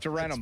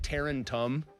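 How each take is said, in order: First: The second T sound is dropped. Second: The second T sound is clearly pronounced. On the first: Locals say it this way. The speaker calls it right. "There's not a second T in that" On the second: An outsider said it this way. The speaker calls it wrong. "he said Tarentum"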